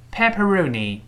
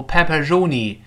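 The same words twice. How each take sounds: First: Pepperoni with the tongue hooked back on "roni"; higher-pitched model pepperoni, r curled toward the throat. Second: Pepperoni with an uncurled, Chinese-style r in "roni"; wrong "r" in pepperoni. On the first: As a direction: say pepperoni with a clear English retroflex r. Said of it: "一定要勾舌头". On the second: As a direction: say pepperoni's "roni" like Chinese 肉泥, tongue not hooked back. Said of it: "不要读". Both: Shown as a demonstration.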